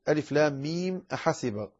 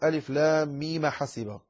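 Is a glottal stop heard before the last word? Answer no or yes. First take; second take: yes; no. First: A glottal stop is heard before the last word. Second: No glottal stop is heard before the last word. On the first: "عندما ينقل ألف لام ميم أحسب" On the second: "فينقل الهمزة فتصبح ألف لام ميم حسب"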